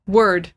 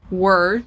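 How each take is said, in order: First: "word" with full R and D; clear final D. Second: "word" with the D left off; imitating missing D. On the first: Shown as a demonstration. Teacher modelling for learner, "word" with final D. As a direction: say "word" ending on a firm D. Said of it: "consonants at the end". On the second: Teacher imitating learner's answer, "word" without final D. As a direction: say "word" as wer, D dropped. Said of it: "almost didn't even hear any D".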